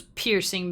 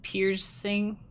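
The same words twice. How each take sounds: First: Said in the usual way. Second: "Piercing" pulled apart into two halves; pun emphasis. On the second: Shown as a demonstration. Explaining a pun to stream viewers, "Piercing" split for emphasis. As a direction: spell out the pun by separating "Piercing" into "Pier-sing". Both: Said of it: "Get it?".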